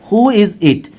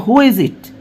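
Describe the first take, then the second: Both takes have the same delivery.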